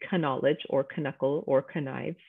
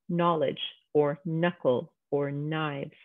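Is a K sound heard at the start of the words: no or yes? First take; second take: yes; no. First: The words begin with a K sound. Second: The words begin with an N sound. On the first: The speaker calls it wrong. "We're not saying knowledge or knuckle or knives" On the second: The speaker calls it right. "where the K is silent"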